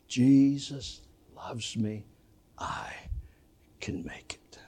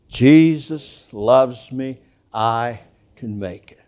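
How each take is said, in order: First: It is said at the quietest volume. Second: It is said at full, normal volume. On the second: "Say it with me"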